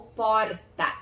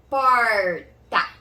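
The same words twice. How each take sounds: First: Alternative accent's R in "porta", split in two; other accent's R. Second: "Porta" split, with a long vibrating R. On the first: Teacher offering another regional option, shorter R. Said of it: "depende do seu sotaque". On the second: Teacher demonstrating the vibration, drawn-out R. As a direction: hold and vibrate the R in "Porta", louder. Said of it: "esse som também de vibração". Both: Shown as a demonstration.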